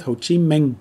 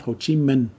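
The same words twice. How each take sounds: First: Ho Chi Minh with Minh ending in ng, "ming"; Northern pronunciation. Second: Ho Chi Minh with Minh ending in n, "min"; Southern pronunciation. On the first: Teacher contrasting dialects for learners, Northern ng ending. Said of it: "In the North". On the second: Teacher contrasting dialects for learners, Southern n ending. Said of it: "In the South". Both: Shown as a demonstration.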